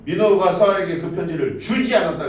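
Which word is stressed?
주지. The stress falls on the word 주지. Something was done with the letter, but it was not given. "그 편지를 읽기는 했는데 뭔가 주진 않은 거"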